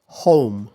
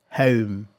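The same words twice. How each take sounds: First: Home with oh glide; American home. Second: Home with central eh-oo glide; British home. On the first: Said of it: "I said the American pronunciation first". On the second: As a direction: say home the British way, starting mid. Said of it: "I'll say this word in two different ways". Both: Shown as a demonstration.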